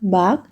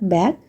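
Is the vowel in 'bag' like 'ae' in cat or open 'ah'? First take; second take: ah; ae. First: The vowel is an open Malayalam-like 'ah' sound. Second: The vowel is a front 'ae' sound as in cat. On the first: The speaker calls it wrong. "will be pronounced as bag by an average Malayali" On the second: The speaker calls it right. "and never bag"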